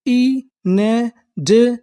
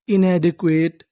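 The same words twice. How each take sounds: First: inadequate drawn out slowly, rising at the end; slow syllable by syllable. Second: Said in the usual way. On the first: Shown as a demonstration. Teacher sounding out the word for students, very slow. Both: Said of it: "तो हमारी पूरी meaning क्या बनी?".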